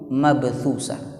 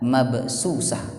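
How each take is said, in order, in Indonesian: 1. Konsonan setelah 'mab' adalah bunyi th. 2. Konsonan setelah 'mab' adalah bunyi s.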